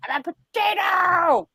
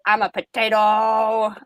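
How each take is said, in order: First: High-pitched goofy exclamation; hammed-up, high joyful yell; silly mock shout. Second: Slow, stretched-out mock announcement; retold goofy comeback, said slowly; drawn-out silly declaration. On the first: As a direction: belt it out high as a silly punchline. Retold reading it out loud, laughing. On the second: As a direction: draw out the last word as a silly comeback.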